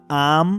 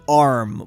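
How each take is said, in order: First: The R sound is dropped entirely. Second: The R sound is clearly pronounced. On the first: "they are often not. They're saying um. Probably not like that" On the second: "these counties are saying arm with the R"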